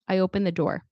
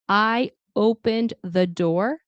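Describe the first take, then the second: First: The D sound in opened is dropped. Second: The D sound in opened is clearly pronounced.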